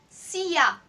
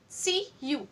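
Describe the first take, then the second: First: The word 'you' is reduced to 'ya'. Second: The word 'you' is said fully. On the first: "but the slang is Sia" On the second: "We commonly pronounce this as C-U"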